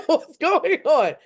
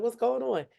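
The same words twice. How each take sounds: First: Higher, louder, slow and drawn out; mock suspicious what's going on; amused suspicion. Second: Said in the usual way. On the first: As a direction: stretch it out, half laughing at him. Friend acting weird, laughing.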